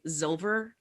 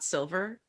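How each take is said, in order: First: The word begins with a buzzing Z sound. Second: The word begins with a hissing S sound. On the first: A small child says it this way. "would say Zilver, not silver. Z like, Zilver with an a Z" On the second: This is the usual adult way to say it. "not silver"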